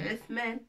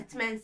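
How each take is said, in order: First: The middle consonant is a soft th sound. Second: The middle consonant is a plain t sound. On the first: The speaker calls it right. "c'est Th" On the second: The speaker calls it wrong. "Non, c'est pas T, c'est Th"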